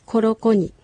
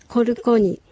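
First: The second syllable is 'ro'. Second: The second syllable is 'ru'.

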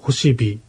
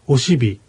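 First: The word begins with an h sound. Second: The word begins directly with a vowel. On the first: This is how other dialects say it. "他の方言ではホシビというのですが" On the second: This is how the local dialect says it. "旭川ではオシビという"

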